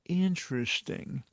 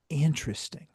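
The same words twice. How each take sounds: First: It is said with full, exaggerated energy. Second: It is said calmly with little energy. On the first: The speaker makes a bigger show of stalling. "if you want to go do, go do a full tilt" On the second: The speaker takes a moment to think. "You just go"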